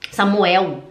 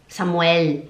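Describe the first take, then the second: First: Samuel ending in a w sound; Portuguese way. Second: Samuel ending in a clear l. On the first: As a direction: say Samuel like a Brazilian. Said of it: "Se eu vou falar Samuel". (Samuel à brasileira) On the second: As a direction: say Samuel with a hard l. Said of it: "a gente não fala Samuel". (Samuel com L claro) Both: Shown as a demonstration.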